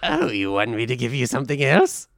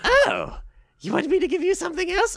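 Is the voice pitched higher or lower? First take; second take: lower; higher. First: The put-on voice is pitched lower. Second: The put-on voice is pitched higher.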